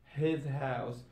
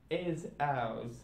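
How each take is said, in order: First: "his house" with both H's; H sounded. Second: "is ours" for his house, both H's gone; H dropped. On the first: Teacher giving the normal English form, "his house" with its H's. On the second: Teacher showing learners Cockney British, "is ours" without any H. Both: Shown as a demonstration. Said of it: "drop the sound of H".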